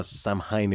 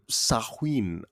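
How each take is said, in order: First: Samhain said as written, SAM-hine; spelling pronunciation. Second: Samhain said sah-WEEN, no M sound; proper pronunciation. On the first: Host spells it out for the guest, Samhain said SAM-hine. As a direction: sound every part of Samhain, M and H included. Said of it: "if I were to just spell it out". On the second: Host puts the question, Samhain pronounced sah-ween. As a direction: give Samhain a W in place of the M. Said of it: "but it is pronounced". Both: Shown as a demonstration.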